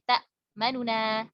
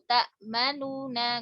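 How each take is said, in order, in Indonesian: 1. Vokal pendek, sebagian terdengar di antara keduanya. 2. Vokal penuh terdengar di antara bunyi n. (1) "Jadi nun yang domahnya ini sedikit dibaca" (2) "nggak gitu"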